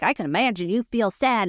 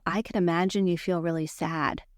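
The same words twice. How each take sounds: First: Irritated mock empathy; getting mad. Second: Calm, gentle empathy; safe, empathetic tone. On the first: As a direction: say the sympathy with impatient, annoyed emphasis. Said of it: "and I'm getting mad". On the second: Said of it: "Now watch my tone". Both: Shown as a demonstration.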